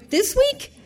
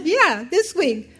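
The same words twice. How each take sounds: First: High, rising, half-laughing disbelief; incredulous question. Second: Slow, higher reply, falling at the end; amused confirmation. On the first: Adoptive mother questioning agency caller, incredulous. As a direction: ask it in high-pitched amazement. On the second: Agency caller answering stunned mother, amused confirmation. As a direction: confirm it slowly to someone incredulous. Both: Retold or imitated.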